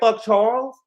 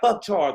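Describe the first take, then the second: First: It sounds like a surprised, questioning remark. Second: It sounds like an angry, dismissive curse.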